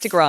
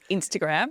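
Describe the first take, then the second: First: It is said in an ordinary, unposh accent. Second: It is said in an exaggerated posh accent.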